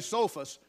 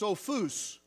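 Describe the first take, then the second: First: The stress is on the first syllable. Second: The stress is on the last syllable. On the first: This is how it is said in English. "In English, we say Sophos" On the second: This is how it is said in Greek. "In the Greek language, it's pronounced Sophos, with the emphasis on the last syllable"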